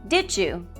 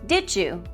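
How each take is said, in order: First: The sounds between the words blend into one. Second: The sounds between the words blend into one.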